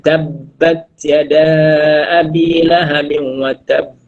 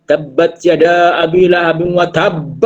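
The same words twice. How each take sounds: First: Chanted slowly with a melodic line; sung, Quran verse recited to students; sung, Quran recitation. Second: Sung, recite again with overdone bounce; sung, a wrong example recited by the teacher; sung, overdone recitation. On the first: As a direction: recite it in a slow chanting tune. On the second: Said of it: "tu salah". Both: Shown as a demonstration.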